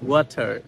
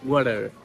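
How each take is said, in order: First: The middle t is a clear, hard t. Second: The middle t is a soft d-like flap. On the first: "আমরা বলি ওয়াটার" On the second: "ওরা বলে ওয়াটার"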